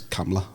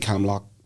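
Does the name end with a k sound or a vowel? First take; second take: vowel; k sound. First: The name ends with an open vowel. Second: The name ends with a k sound. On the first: This is how local people say it. "the local accent is Camla" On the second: This is how people from the city say it. "I think we would say Camlock from, from Belfast"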